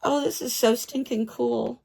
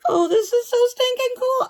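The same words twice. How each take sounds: First: Said in the usual way. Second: Much higher, louder gleeful squeal; excited squeal. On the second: Real, not acted. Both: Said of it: "repeated higher".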